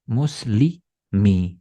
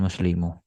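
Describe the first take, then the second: First: The word ends with an i vowel. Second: The word ends with a u vowel. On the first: The speaker calls it right. "Itu pasti bacanya muslimi" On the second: The speaker calls it wrong. "bukan muslimu"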